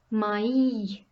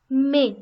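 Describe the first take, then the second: First: "mai" as two syllables, ma-EE; vowels pronounced separately. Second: "mais" as one short syllable, "meh"; single vowel sound. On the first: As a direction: split "mai" into a and a long ee. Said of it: "it is pronounced". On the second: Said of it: "and when there is the accent tréma". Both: Shown as a demonstration.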